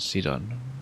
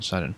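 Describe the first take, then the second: First: The first syllable sounds like the note 'si'. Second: The first syllable does not sound like 'si'. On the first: The name follows the musical note naming scheme. "he should be C Do, as in T and Do" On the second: The name does not follow the musical note naming scheme. "rather than Sidon"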